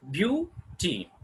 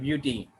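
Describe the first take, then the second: First: "beauty" broken into "beau" and "ty" with a gap; split into syllables. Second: Said in the usual way. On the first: Shown as a demonstration. Teacher counting syllables for learners, "beauty" said in two parts. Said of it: "there are two syllables". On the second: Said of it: "go through with the beauty".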